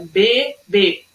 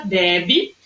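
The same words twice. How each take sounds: First: BEBÊ split in syllables, closed final ê. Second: BEBE as "BEH-bee", open stressed first vowel. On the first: Teacher explaining the difference, BEBÊ split with closed ê. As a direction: say BE-BÊ, stressing the closed ending. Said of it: "uma sílaba que é mais fechada". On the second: Teacher explaining the difference, BEBE with open é. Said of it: "pronunciado de forma mais aberta". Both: Shown as a demonstration.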